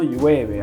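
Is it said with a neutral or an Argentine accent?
neutral. It is said with a neutral Spanish accent.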